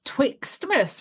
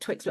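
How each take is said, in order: First: It has a t sound after twix. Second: It has no t sound after twix. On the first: "with a T" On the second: "I've always said Twixmas"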